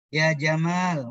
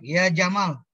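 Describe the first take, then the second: First: The second vowel of Jamal is held long. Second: The second vowel of Jamal is cut short. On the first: It calls someone handsome. The speaker calls it right. "yang benar panggilnya" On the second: It calls someone a camel. The speaker calls it wrong. "Jangan dibaca pendek"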